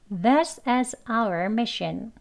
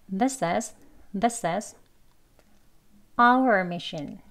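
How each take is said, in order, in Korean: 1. 천천히 말하고, 특별한 강조는 없어요. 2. 'our'를 강하게 강조해요. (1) "우선 문장 천천히 말하는 경우로 발음하겠습니다" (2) "다음은 이제 our만 강조해서요"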